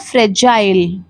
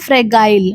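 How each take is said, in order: First: The middle consonant is a j sound. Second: The middle consonant is a hard g sound. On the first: The speaker calls it right. "जा का sound देता है" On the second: The speaker calls it wrong. "लोग बोलते हैं फ्रेगाइल, लेकिन ये गलत होता है"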